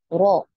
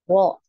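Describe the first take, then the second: First: The r vibrates just once. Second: The r vibrates just once.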